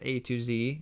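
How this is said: The letter Z is said the American way.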